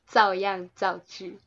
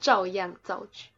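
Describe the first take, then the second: First: The first syllable starts with a flat, unretroflexed consonant. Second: The first syllable starts with a curled, retroflex consonant. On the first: The speaker calls it wrong. "我们俩都不卷舌" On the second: The speaker calls it right. "就是要卷舌哦"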